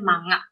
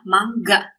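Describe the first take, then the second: First: The nasal is not followed by a hard g. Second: The nasal is followed by a hard g. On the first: The speaker calls it wrong. "Kita kan biasa seringnya bacanya manga" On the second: The speaker calls it right. "Yang benar adalah mangga"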